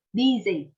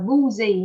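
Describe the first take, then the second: First: "Busy" said as BIH-zee; short I vowel. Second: "busy" said as BOO-zee; mispronounced U vowel. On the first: Teacher correcting students, "Busy" as BIH-zee. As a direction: use an i, not oo, in "Busy". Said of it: "âm Y". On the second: Teacher warning students of the mistake, "busy" as BOO-zee. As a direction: put an oo in the first syllable of "busy". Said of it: "Chứ không là busy nha". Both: Shown as a demonstration.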